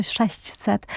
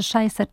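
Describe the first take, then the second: First: „sześćset” z wyraźnym miękkim ś; wymowa staranniejsza. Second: „sześćset” wymówione jako „szejset”; wymowa uproszczona. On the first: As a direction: powiedz „sześset”, z ś przed „set”. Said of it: "czy sześćset". (staranniejsze „sześćset”, z ś zamiast j) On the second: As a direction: powiedz „szejset”, z j zamiast ść. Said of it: "będziemy rozstrzygać". (uproszczone „sześćset” z j) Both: Shown as a demonstration.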